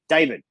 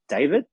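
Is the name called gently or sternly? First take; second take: sternly; gently. First: The name is called sharply, in an alarming tone. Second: The name is called gently, like a question.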